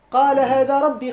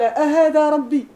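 First: Said in the usual way. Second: أهذا drawn out slow and loud as a scornful question; mocking disbelief on أهذا ربي. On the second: Shown as a demonstration. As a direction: stretch أهذا into a rebuke, louder and higher. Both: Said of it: "كاين واحد الاستفهام هنا محذوف".

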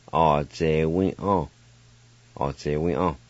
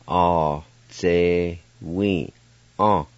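First: All day we on said smoothly with a falling end; natural pace Cherokee. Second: All day we on drawn out slowly, we falling long; slow teaching read of a Cherokee word. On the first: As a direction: say All day we on in one breath. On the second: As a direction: stretch All day we on syllable by syllable. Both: Shown as a demonstration. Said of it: "now I'll pronounce these words".

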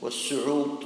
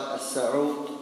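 First: والسعوط said as was-su'ut; short "u" after the s in والسعوط; verbal-noun form with damma. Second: السعوط said as as-sa'ut; short "a" after the s in السعوط; noun form with fatha. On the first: Teacher naming the act, والسعوط with a "u". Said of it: "هو الفعل". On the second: Teacher naming the nose drops, السعوط with an "a". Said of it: "وهو القطرة التي توضع في الأنف". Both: Shown as a demonstration.

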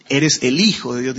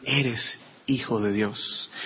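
First: "el hijo" said with the article marked, in a running phrase; contrast with "el". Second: "Eres" set apart, then "hijo de Dios" slow and soft; slow, hushed "Eres... hijo de Dios"; contrast without article. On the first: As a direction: say "el hijo" as one connected phrase, leaning on the article. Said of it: "No dijeron aún". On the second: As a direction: pause after "Eres", then let "hijo de Dios" drop low and soft. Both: Shown as a demonstration.

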